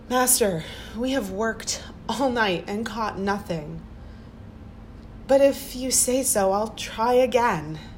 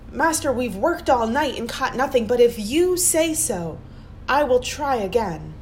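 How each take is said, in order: First: It sounds resigned and pleading. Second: It sounds full of strong faith.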